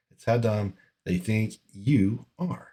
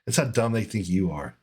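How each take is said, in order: First: Drawn out and quieter, word by word; slowed, disgusted restatement; slow emphatic repeat. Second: Said in the usual way. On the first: Real, not acted. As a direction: drag it out so it sinks in. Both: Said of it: "repeats the phrase".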